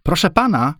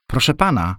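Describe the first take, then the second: First: High-pitched call for attention. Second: Higher, imploring appeal; pleading. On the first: Girl calling to a passing man, high call. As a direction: call across to someone, voice lifted high. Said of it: "zawołała w stronę Henryka". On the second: Girl begging a passing man for help, pleading. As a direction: plead for help, voice raised in pitch. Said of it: "powtórzyła błagalnie". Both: A narrator's reading.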